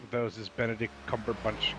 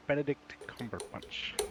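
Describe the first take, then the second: First: Said in the usual way. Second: Savoured name. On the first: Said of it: "'cause he's got the best name". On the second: Shown as a demonstration. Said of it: "What a wonderful name that is".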